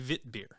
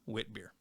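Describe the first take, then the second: First: The word begins with a V sound. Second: The word begins with a W sound.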